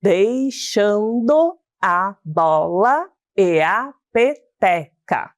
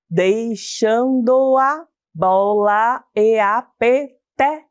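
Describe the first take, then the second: First: "Deixando a bola e a peteca" slowly, every syllable separate, each vowel on its own; grammatical syllable division. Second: "Deixando a bola e a peteca" slowly in chunks, joining "do a" and "e a"; poetic syllable division. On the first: Teacher showing pupils grammatical syllables of "Deixando a bola e a peteca", every syllable separated. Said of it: "uma separação de sílaba gramatical, ficaria assim".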